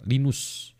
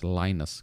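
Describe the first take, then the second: First: The name is read out letter by letter. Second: The name has its American English pronunciation. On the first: "kalau saya baca namanya Linus ya" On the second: "kalau orang Amerika bilangnya Linus"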